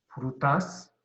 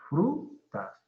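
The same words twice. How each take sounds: First: The stress is on the second syllable. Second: The stress is on the first syllable. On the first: The speaker calls it wrong. "No es frutas, no" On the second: The speaker calls it right. "Es frutas"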